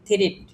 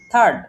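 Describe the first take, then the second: First: The r comes before the vowel. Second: The r comes after the vowel. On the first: The speaker calls it wrong. "উচ্চারণ না জানতেন তাহলে এটাকে উচ্চারণ করতেন" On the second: The speaker calls it right. "আয়ের উচ্চারণটা আমার হচ্ছে বাদ"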